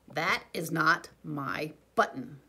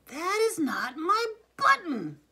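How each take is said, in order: First: Slow, louder wail, stretching "That" long; a long drawn-out complaint, louder and slow. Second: High, loud, slow yell, landing hard on "button"; furious shout. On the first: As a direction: Toad wailing that the raccoon's button isn't his. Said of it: "wailed Toad". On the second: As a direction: shout it in a completely different voice, much higher and louder. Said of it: "shouted Toad". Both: A narrator's reading.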